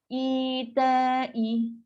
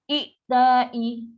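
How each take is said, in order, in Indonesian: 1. Vokal pertama dipanjangkan. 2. Hamzah membuat vokal pertama pendek. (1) "jadi bunyi panjang lagi, senang sebut" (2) "dia tak suka, dia tak nak macam tu"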